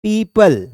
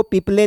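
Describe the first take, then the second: First: Said in the usual way. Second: "पीपले" read as written, ending in "-le"; misread "people". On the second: Shown as a demonstration. Teacher showing students a misreading, "पीपले" ending in "-le". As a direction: say "पीपले" with a final "lay" sound. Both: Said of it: "इसको पीपले नहीं पढ़ना है".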